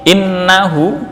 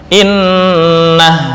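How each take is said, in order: First: The word ends with a full -hu syllable. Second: The word ends with a bare h sound. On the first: The reciter continues without stopping. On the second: The reciter stops on this word.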